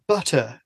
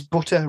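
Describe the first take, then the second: First: "Butter" with a southern English open "uh" vowel; Southern English accent. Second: Said in the usual way. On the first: Shown as a demonstration. Northern podcaster showing how Southerners say it, southern English accent. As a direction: say "Butter" as southern English people do, "BUH-tuh". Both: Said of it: "is the Southerners say".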